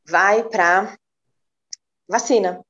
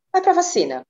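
First: Said in the usual way. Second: "Vai pra vacina" repeated much higher, with "pra" lifted and falling; emphatic repeat. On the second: Real, not acted. Repeating her pick of the vaccine to the friends, emphatic and high.

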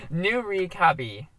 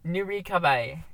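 First: Nurikabe slowly, ending in "bee"; slow, careful Nurikabe ending "bee"; careful pronunciation. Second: Nurikabe said as noo-ree-kah-bye; wrong pronunciation. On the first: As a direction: spell out Nurikabe syllable by syllable, slowly, final "bee". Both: Shown as a demonstration. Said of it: "No, that was wrong".

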